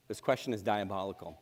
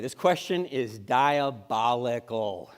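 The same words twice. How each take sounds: First: Softer repeat. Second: Slow emphasis. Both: Shown as a demonstration.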